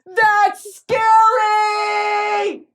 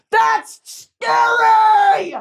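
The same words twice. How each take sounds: First: High, very slow drawn-out wail; repeated mock alarm. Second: High, loud, very slow drawn-out cry; mock alarm. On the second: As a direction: stretch it out in comic alarm. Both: Real, not acted.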